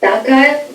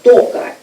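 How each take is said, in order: First: The unstressed first vowel sounds like a. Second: The unstressed first vowel sounds like o. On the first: The speaker calls it wrong. "should be read not as a" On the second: The speaker calls it right. "but as o"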